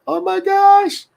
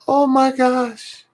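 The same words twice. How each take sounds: First: Very high, slow, gushing oh my gosh; extremely high melting gasp; awed squeal. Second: Very high, slow, gushing oh my gosh; high drawn-out swoon; awed squeal. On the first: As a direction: swoon over the grandchild, stretched out. Retelling reaction again. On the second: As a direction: melt at something adorable. Reacting to granddaughter's message. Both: Retold or imitated.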